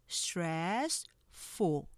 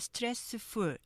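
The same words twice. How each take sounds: First: Two syllables are spoken, the first one stressed. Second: Many even syllables are spoken. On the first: The speaker calls it right. "실제는 stressful 이음절로 발음돼요" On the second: The speaker calls it wrong. "이렇게 하실 수 있지만"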